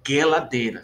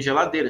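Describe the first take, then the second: First: Geladeira said "gueladeira", G as in gato; hard G. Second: Said in the usual way. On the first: Shown as a demonstration. Teacher shows how Hebrew would say it, geladeira with hard G. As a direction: harden the first sound of geladeira to gue. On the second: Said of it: "Não tem geladeira".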